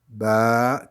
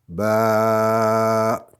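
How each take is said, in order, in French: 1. La voyelle est tenue pendant deux temps. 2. La voyelle est tenue pendant quatre temps. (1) "deux fois plus long" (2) "quatre fois plus long"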